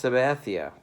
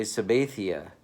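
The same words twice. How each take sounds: First: Said in the usual way. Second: Sabathia with a long A, suh-BAY-thee-uh; Doug Melvin's mispronunciation. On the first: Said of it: "you're mispronouncing the guy's name". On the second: Retold or imitated. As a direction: stretch the middle of Sabathia to rhyme with "bay". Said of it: "as Doug Melvin would say".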